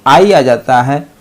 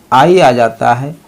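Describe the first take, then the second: No difference in how they are said.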